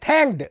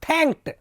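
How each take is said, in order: First: The word ends with a d sound. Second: The word ends with a t sound. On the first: The speaker calls it wrong. "अब अपन गांव वाले क्या बोलेंगे?" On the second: The speaker calls it right. "लेकिन विश्व स्तर का उच्चारण क्या है?"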